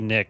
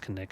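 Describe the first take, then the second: First: The word starts with a plain N sound. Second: The word starts with a K sound before N. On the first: "Could be Nick" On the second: "We're pronouncing the K"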